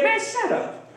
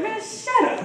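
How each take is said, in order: First: Higher, scornful brush-off; mock dismissive king. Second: Higher, scornful brush-off in a put-on voice; mock dismissive king. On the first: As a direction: wave the prophet off with contempt. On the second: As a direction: wave him off again with contempt. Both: King Ahab dismissing the prophet.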